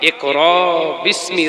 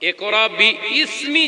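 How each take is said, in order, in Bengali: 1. 'bismi' একসাথে বলা হয়, কোনো অতিরিক্ত স্বর ছাড়া। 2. 'bismi' আলাদা করে বলা হয়, 'bi-ismi'।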